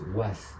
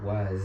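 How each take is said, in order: First: The word ends with a hissing s sound. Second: The word ends with a buzzing z sound. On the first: The speaker calls it wrong. "no es was" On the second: The speaker calls it right. "es was"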